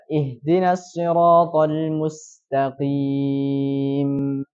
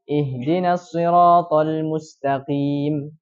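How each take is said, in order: First: The final m hums on briefly before stopping. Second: The final m is cut off abruptly. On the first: The speaker calls it right. "yang harusnya dibaca" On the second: The speaker calls it wrong. "Tapi dia langsung berhenti"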